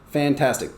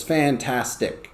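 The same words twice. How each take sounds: First: Said in the usual way. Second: "fantastic" slow, in three separate beats; syllable by syllable. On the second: Shown as a demonstration. Teacher shows the syllables of "fantastic", slow and split. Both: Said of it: "there's these syllables".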